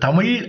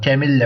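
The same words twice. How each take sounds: First: The word ends with a retroflex zh sound. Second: The word ends with a plain l sound. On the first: The speaker calls it right. "அது அழகா சொல்லணும்" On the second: The speaker calls it wrong. "அசிங்கமா சொல்லக்கூடாது"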